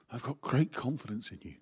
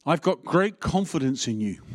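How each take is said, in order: First: Softer, personal, "great" gently stressed; own voice. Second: A touch louder, proclaiming "great" as Paul; Paul's voice. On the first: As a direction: say it quietly as yourself, meaning it. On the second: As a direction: give Paul's line with a firm fall on "great". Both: Shown as a demonstration. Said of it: "you can hear Paul's voice or you can hear mine".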